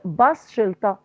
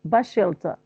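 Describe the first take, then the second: First: The s of the first word is pronounced. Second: The s of the first word is dropped. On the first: The speaker calls it wrong. "not bus shelter" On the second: The speaker calls it right. "I omit a sound in the first word and and pronounce it bashelta"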